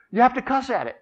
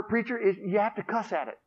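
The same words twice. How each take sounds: First: Higher, louder insistent repeat. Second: Said in the usual way. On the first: Acted. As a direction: press the advice home. Boy repeats advice emphatically.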